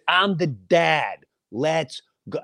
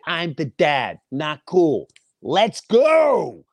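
First: Slow, firm, every word set down; firm dad. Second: Louder, higher, GO shouted out; raised voice. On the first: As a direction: lay down the law as the dad. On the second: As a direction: raise the voice to end it. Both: Retold or imitated. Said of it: "My voice raises".

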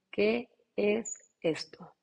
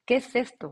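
First: Slow, drawn-out disbelief; slow amazed. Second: A louder, punchier repeat of the question; louder amazement. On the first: Recalling her first yoga classes, slow stunned wonder. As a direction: draw it out in wonder. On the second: Recalling her first yoga classes, loud excited wonder. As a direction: punch it out in delight. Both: Retold or imitated.

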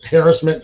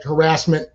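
First: Harassment stressed on the first syllable; variant pronunciation. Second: Harassment stressed on the second syllable; variant pronunciation. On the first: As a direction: say harassment with the weight on HAR. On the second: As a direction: say harassment with the weight on RASS. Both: Shown as a demonstration. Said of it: "it's like harassment, people's harassment".

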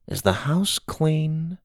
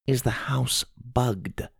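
First: Soft, slow, rising question; guarded question. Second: Hushed, slow, secretive question; lowered voice. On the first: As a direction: ask carefully with raised pitch. Grandma first asks in code. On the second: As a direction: ask it so no spy can hear. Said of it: "Grandma lowered her voice". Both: A narrator's reading.

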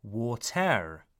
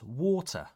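First: WATER as 'wa-terr' with a heavy R; sounded final R. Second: WATER as 'waw-tuh', final R dropped; non-rhotic. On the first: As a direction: stress and sound the '-ter' of water with its R. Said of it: "is not pronounced". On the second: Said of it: "it's water". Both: Shown as a demonstration.

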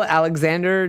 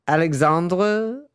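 First: "Alexander" with a flat A as in "hand"; English-style Alexander. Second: "Alexandre" with a broad AH, ending in -druh; French-style Alexandre. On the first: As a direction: say "Alexander" the everyday English way, ending in -der. Correcting to the English name. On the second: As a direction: say "Alexandre" slowly, French-style, rising as if unsure. Trying out a director's first name. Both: Real, not acted.

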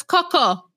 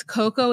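First: Coco with a short, odd first vowel, between "cuck" and "co"; imitating Jasmine's pronunciation. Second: Said in the usual way. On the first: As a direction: say Coco oddly, not quite "cuckoo". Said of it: "It's like she says Coco". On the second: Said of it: "the way Jasmine says Coco".

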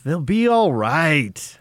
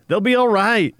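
First: Very slow soothing reassurance; calm and reassuring. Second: Said in the usual way. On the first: Shown as a demonstration. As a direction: take a breath and soothe. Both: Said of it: "Deep breath".

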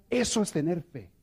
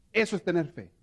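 The two takes are said the same way.

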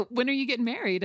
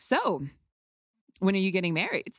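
First: Coy teasing. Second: Coy and cute. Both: Retold or imitated. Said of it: "coy and cute".

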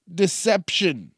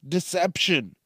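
First: Deception said louder and slowly drawn out; Deception stressed. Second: Said in the usual way. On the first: Acted. Ranting host hammers the word Deception, slow and weighty.

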